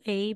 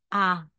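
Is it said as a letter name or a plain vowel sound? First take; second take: letter name; plain vowel. First: It is said like the English letter name. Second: It is said as a plain open vowel sound. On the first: The speaker calls it wrong. "hindi po A" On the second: The speaker calls it right. "magiging A"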